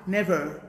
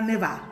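First: The final R sound is clearly pronounced. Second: The final R sound is dropped. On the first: The speaker calls it right. "vous mettez le R là, sur ça" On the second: The speaker calls it wrong. "Pas never"

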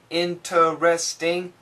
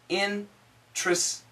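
First: The word is said in full, with every syllable sounded. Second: The word is said reduced, with a syllable dropped. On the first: This is the dictionary pronunciation. "In your dictionary" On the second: This is the everyday American pronunciation. "the daily English pronunciation for most Americans"

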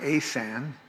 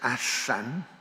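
First: The middle consonant is a buzzing z. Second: The middle consonant is a hissing s. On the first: The speaker calls it wrong. "it's not Asan, which I used to hear" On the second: The speaker calls it right. "it's clearly two S's. It's Asan"

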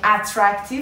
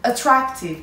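First: The first vowel is a full, clear vowel. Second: The first vowel is a reduced schwa. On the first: The speaker calls it wrong. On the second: The speaker calls it right. "it's schwa. Schwa sound"

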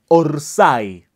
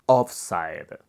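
First: It is said in the Argentine football way. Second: It is closer, but the first vowel is off. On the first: "una palabra muy mal pronunciada en el fútbol argentino" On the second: "ochenta y cinco por ciento correcto. Ahí me marca que la O de offside la estoy diciéndome mal"

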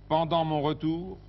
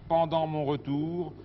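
Both takes have the same delivery.

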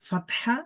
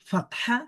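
The two takes are said the same way.

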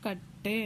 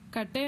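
First: The middle consonant is doubled and held long. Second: The middle consonant is short and single. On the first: The speaker calls it right. "ಒತ್ತಿ ಹೇಳಿದಾಗ" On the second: The speaker calls it wrong. "ಕಟ್ಟೆ ಅಂತ ನಾವು pronounce ಮಾಡ್ತಾ ಇಲ್ಲ"

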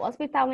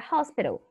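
First: The word is pronounced the Portuguese way. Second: The word is pronounced the English way. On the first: "Se escreve da mesma forma aqui em português, mas a pronúncia aqui é diferente" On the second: "Hospital em inglês é hospital"

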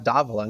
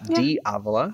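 First: It is pronounced the original, non-American way. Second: It is pronounced the common American way. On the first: The speaker calls it right. "the second half actually is just pronounced d'Avola" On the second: The speaker calls it wrong. "not d'Avola. ... most Americans will say it"

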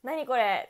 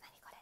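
First: It is said loudly, in a big voice. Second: It is said at a normal, quiet volume.

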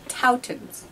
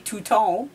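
First: It is said with the local English pronunciation. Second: It is said with a French pronunciation. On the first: The speaker calls it right. "So apparently it's pronounced Toutons" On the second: The speaker calls it wrong. "because that's how we would say it in French, but people laughed at me"

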